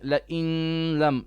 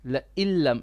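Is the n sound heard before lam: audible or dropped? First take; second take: audible; dropped. First: The n sound is pronounced before the l. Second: The n merges fully into a doubled l. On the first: The speaker calls it wrong. "You are saying la in lam. No" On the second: The speaker calls it right. "it's la illam"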